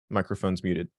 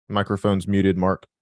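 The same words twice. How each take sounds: First: Said in the usual way. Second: Louder call to get Mark's attention. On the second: Real, not acted. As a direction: raise the voice so Mark hears. Host calls Mark again, louder.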